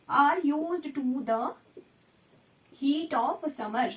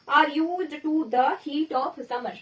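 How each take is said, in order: First: Even slower, pausing mid-phrase; slower repeat. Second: Very slow, word by word; slow dictation. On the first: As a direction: repeat it very slowly for students to write. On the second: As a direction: read it out slowly for the class. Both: Shown as a demonstration. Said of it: "example आया".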